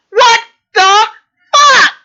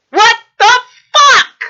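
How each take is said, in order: First: Furious what the fuck. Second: Higher, louder disbelieving burst on fuck; furious what the fuck. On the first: Vlogger raging at Republicans, louder and higher in disbelief. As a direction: voice jumping high on fuck, louder. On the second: Vlogger exploding at people attacking officials, higher and louder. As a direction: spit it out in angry disbelief. Ranting at Republicans. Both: Real, not acted.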